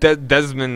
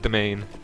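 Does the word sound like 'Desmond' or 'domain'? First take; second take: Desmond; domain. First: It is said like the name Desmond. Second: It is said like the word domain. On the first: The speaker calls it wrong. "I pronounced it Desmond or whatever it is" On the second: The speaker calls it right. "oh wait, it is domain"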